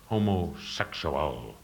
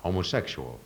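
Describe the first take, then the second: First: Southern drawl. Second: Said in the usual way. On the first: Shown as a demonstration. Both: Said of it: "like in a southern expression".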